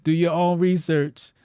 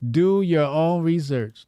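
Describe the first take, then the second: First: Said in the usual way. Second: "Do your own research" said slowly, each word weighted; slow emphatic. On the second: Shown as a demonstration. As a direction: drag it out with mock gravity. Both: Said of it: "repeat, second slower".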